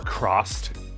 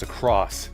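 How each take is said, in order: First: The word ends with a t sound. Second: The word ends with an s sound. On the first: The speaker calls it wrong. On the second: The speaker calls it right. "it's a cross"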